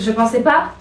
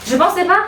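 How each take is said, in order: First: Said in the usual way. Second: Gleeful squeal of disbelief; excited disbelief. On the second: Real, not acted. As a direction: pitch jumps much higher on pas. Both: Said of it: "Désolée, je crie".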